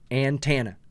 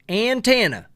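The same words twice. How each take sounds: First: It is said in the speaker's everyday accent. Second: It is said in a put-on hillbilly accent. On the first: "Team Skeptic"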